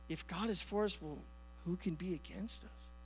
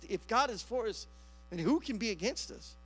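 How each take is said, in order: First: It is said timidly, like a hesitant question. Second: It is said confidently, as a firm statement.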